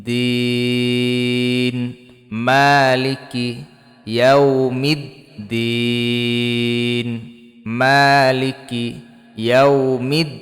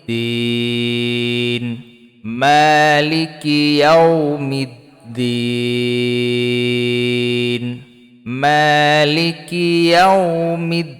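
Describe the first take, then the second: No difference in how they are said.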